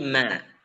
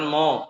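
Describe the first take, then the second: First: The syllable is light with an open vowel. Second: The syllable is heavy with a rounded vowel. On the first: The speaker calls it right. "mimnya itu dibaca tipis" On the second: The speaker calls it wrong. "Jangan mo"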